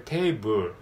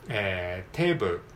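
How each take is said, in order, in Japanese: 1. 最後のLはダーク。小さいuみたいな音。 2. 最後のLはライトで、明るくてクリアな音。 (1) "これはダークL になるので" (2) "明るいL、ライトL で"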